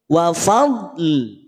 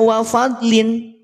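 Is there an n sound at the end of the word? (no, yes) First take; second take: no; yes. First: The word ends without any n sound. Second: The word ends with an added n sound. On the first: The speaker calls it right. "Jadinya lam sukun" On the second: The speaker calls it wrong. "maka ketika berhenti tidak dibaca wa fadlin"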